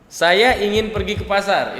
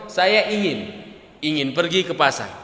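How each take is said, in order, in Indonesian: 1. Diucapkan sebagai satu frasa utuh. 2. Terputus setelah ingin lalu mengulang ingin. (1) "Ini frasa yang satu utuh" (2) "ketika kita potong"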